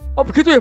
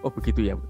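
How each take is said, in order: First: The pitch climbs higher as if getting annoyed. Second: The pitch is held low and steady. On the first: The speaker is starting to lose their temper. The speaker calls it wrong. "kita kan mau naik tuh" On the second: The speaker stays calm and in control. The speaker calls it right.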